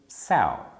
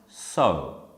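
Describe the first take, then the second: First: The vowel sounds like the word cow. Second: The vowel sounds like the word so. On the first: It means an adult female pig. "Cow rhymes with sow" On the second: It means to put seeds in the ground. "is pronounced sow. ... you could write something like so"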